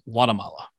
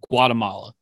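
First: The word begins without a hard G sound. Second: The word begins with a hard G sound. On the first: "without the hard G, more like Guatemala" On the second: "what I've always referred to as"

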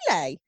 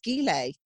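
First: The word begins with a soft G sound. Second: The word begins with a hard G sound. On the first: The speaker calls it wrong. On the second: The speaker calls it right.

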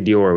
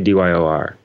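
First: It is said as one word, like Dior. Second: It is said as four separate letters. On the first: The speaker calls it wrong. "We don't say Dior" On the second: The speaker calls it right. "We just say D-Y-O-R"

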